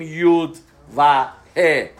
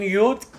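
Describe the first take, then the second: First: یود و ه spelled out slowly, letter by letter; name the letters یود and ه deliberately, slow; wrong letter names. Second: Said in the usual way. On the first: Shown as a demonstration. (نام حروف را آهسته و جدا بگو)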